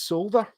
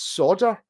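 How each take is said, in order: First: The word is said with an L sound. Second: The word is said without an L sound. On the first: This is how other Americans say it. "They pronounce the L" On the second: This is how it is said in Texas. "in Texas it's solder"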